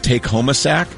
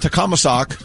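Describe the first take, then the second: First: It is said as four separate, clear words. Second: It is said run together as one word. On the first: "their combo meals are called Take Home a Sack" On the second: "I pronounced it the way it's spelled on the thing"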